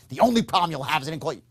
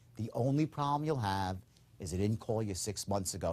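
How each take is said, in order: First: It sounds insincere, not calm or low-key. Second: It sounds calm, low-key and sincere.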